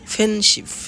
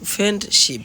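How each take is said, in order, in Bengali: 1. d ধ্বনিটি বাদ দেওয়া হয়। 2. d ধ্বনিটি স্পষ্টভাবে উচ্চারিত হয়। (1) "এলিজন হলে" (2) "পূর্ণরূপে বলি"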